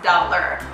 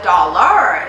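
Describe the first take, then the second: First: The second syllable has a weak 'er' vowel. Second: The second syllable has a full 'ar' vowel. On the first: The speaker calls it right. "d, a, l, er" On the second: The speaker calls it wrong. "It's not dollar"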